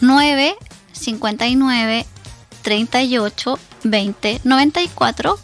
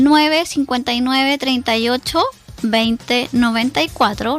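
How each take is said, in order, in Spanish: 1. El número se lee a un ritmo más lento. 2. El número se lee a un ritmo normal, más rápido.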